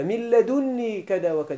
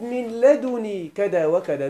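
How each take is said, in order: First: لدني with a held double n, ladunnī; doubled n. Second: لدني with a single n, ladunī; lightened n. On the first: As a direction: say لدني as ladunnī, leaning on the nūn. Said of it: "لدني بإثبات النون". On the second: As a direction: say لدني slowly as ladunī, no doubling. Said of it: "لدني بحذف نون الوقاية". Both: Shown as a demonstration.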